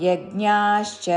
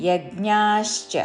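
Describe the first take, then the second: Both takes have the same delivery.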